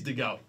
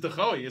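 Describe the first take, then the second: First: The name is pronounced the Australian way. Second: The name is pronounced the non-Australian way. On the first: This is how the player's own name is said locally. The speaker calls it right. "we'll pronounce it the Aussie way" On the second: This is how the name was known from elsewhere. The speaker calls it wrong. "I've only ever known it as De Goey"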